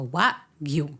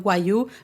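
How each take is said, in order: First: The g sound is clearly pronounced. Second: The g sound is left silent. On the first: The speaker calls it right. "Wagyu. Ya está" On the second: The speaker calls it wrong. "siempre que alguien me dice eh, Wayu, me río un poquito"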